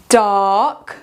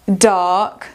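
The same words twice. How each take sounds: Both takes have the same delivery.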